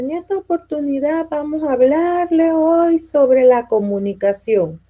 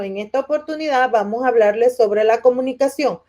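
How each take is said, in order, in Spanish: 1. Se dice en voz baja, casi sin voz. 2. Se dice en voz alta y clara.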